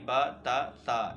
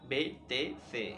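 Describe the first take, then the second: First: The letters are named with open Arabic 'a' vowels. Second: The letters are named with Urdu-style 'e' vowels. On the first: The speaker calls it right. "अरबी लहजे में पढ़ेंगे, यानी बा ता सा इस तरह से पढ़ेंगे" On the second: The speaker calls it wrong. "ना कि बे ते से"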